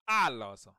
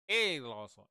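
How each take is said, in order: First: "aloso" begun with an open ah; correct first vowel. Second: "eloso" begun like the letter A; wrong first vowel. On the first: Teacher correcting the ay mistake, open ah vowel. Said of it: "it's aloso". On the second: Teacher showing learners what not to say, ay vowel. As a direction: say "eloso" as ay-loso. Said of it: "It's not". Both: Shown as a demonstration.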